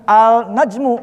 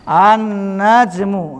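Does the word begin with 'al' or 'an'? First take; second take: al; an. First: The L is clearly pronounced before the N. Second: The L merges into a doubled N sound. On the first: The speaker calls it wrong. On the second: The speaker calls it right.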